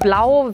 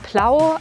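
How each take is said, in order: First: The word begins with a soft B sound. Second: The word begins with a hard P sound. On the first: "Die Farbe Blau" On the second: "wäre Plau"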